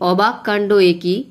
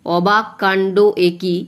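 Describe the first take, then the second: First: Said in the usual way. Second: অবাক কাণ্ড একি read slowly, beat by beat, with a stress on অবাক; slow chanted verse reading; slow rhythmic recitation. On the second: Shown as a demonstration. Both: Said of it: "এইখানে শ্বাস পড়লো".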